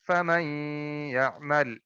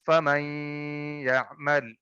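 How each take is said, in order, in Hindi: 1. n नासिकीकरण के साथ y में मिल जाता है। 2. n नासिकीकरण के साथ y में मिल जाता है।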